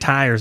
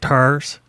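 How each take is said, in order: First: The word has a standard long 'tie' vowel. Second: The word sounds close to 'turs' in a drawl. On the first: "they don't say tires" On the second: "they say tires"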